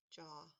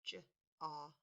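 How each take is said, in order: First: Said in the usual way. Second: "J, aw" softly, each sound on its own; quiet phonics sounds "J", then "aw". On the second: Shown as a demonstration. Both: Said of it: "let's spell that sound".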